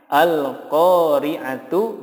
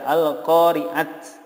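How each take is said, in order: First: The word ends in a t followed by u. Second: The word ends in a bare t sound. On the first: "Contohnya al-qari'atu" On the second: "tidak diboleh dibaca al-qari'at"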